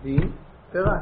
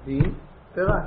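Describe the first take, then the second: First: It is said as two separate words. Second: It is said as two separate words.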